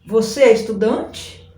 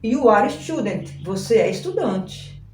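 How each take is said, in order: First: "Você é estudante?" with the voice rising on the end; question tune. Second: "Você é estudante." with the pitch falling at the end; statement tune. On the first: Teacher showing students how to ask, rising question tune. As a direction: lift the last word into a question. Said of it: "Agora eu quero perguntar". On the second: Teacher showing students the affirmative, falling statement tune. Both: Shown as a demonstration.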